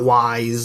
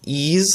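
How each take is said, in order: First: It rhymes with wise, starting with a w sound. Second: It rhymes with ease, ending in a z sound. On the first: "it's not wise" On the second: "while you can say it um, like uh, like ease"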